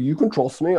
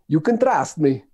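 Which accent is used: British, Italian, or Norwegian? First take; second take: Norwegian; Italian. First: It is said in a Norwegian accent. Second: It is said in an Italian accent. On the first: The speaker sounds believable. "If I say it with a Norwegian accent, that works quite well too" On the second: The speaker sounds laughable, not believable. "Whenever I do it with an Italian accent, people just laugh at me"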